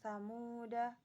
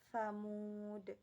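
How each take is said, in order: First: The word ends with a short final vowel. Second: The word ends on a consonant, no vowel. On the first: The reading continues without stopping. "Ketika wasolnya dibaca pendek" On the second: The reading stops at this word. "ketika wakof dibaca dalnya itu dibaca mati jadi baca sukun"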